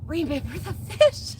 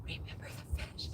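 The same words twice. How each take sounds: First: Voiced, higher-pitched question; retold sly reminder. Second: Quick, hushed whisper; conspiratorial whisper. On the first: Cousin at the funeral reminding her, higher-pitched question. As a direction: ask it aloud, lifted in pitch. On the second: Retold or imitated. Daughter turning to mom at the funeral, quick whisper. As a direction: whisper it fast so only one person hears.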